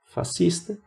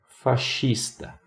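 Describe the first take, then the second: First: It is said with a Brazilian Portuguese pronunciation. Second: It is said with an Italian pronunciation. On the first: "pronunciaremos a palavra como utilizamos em português brasileiro" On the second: "em italiano temos aí a pronúncia"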